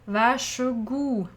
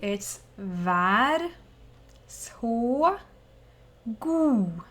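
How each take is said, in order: First: Said quickly, with r and s merged into sh. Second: Said slowly, with r and s kept apart. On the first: "If I say it quickly and I have a rolled R, then I, the R and the S together is pronounced sh" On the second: "If I say it slowly"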